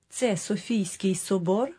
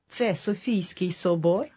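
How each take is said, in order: No difference in how they are said.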